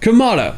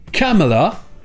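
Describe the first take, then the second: First: The stress is on the second syllable. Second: The stress is on the first syllable. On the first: "c'est la deuxième syllabe qui est accentuée" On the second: "avec la première syllabe accentuée"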